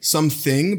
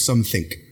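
First: Plain accent with a voiced final consonant. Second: German accent with a voiceless final consonant.

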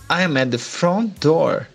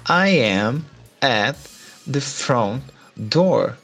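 First: It is said at normal speed. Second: It is said more slowly.

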